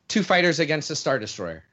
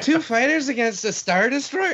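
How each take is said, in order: First: The voice stays flat and falls like a statement. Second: The voice rises at the end like a question. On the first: It is stated as a plain fact. "Didn't sound like a question enough" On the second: It is asked in disbelief. "You wanted me to say it like him"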